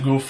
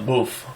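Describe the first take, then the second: First: It starts with a plain G sound. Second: It starts with a gulped, throaty G sound. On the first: The speaker calls it wrong. "some people also pronounce it goof like a regular G" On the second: The speaker calls it right. "really correctly a, a gulping G sound"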